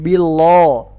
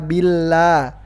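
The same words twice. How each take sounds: First: The l is thick and heavy, darkly pronounced. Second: The l is thin and light, clearly pronounced. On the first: The speaker calls it wrong. "Kenapa bukan billah?" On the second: The speaker calls it right. "Kenapa dibaca tipis"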